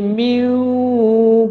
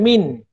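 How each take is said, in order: First: The n sound merges into a w sound. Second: The n sound is pronounced clearly. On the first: The speaker calls it right. "Dia jadi miu" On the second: The speaker calls it wrong. "kita bunyikan min. Salah"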